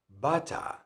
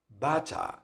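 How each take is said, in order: First: It is said in a British accent. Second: The same.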